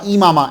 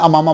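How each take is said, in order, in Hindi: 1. शब्द का पहला स्वर 'i' है। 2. शब्द का पहला स्वर 'a' है। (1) "इमामा एन के नीचे" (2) "अक्सर हम अपनी लैंग्वेज में अमामा बोलते हैं"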